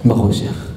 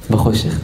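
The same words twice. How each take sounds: First: Breathy, dropped whisper on בחושך. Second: Said in the usual way. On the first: Shown as a demonstration. Preacher whispering the punchline to the crowd. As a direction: breathe בחושך out low and voiceless. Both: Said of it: "סרט רואים בחושך".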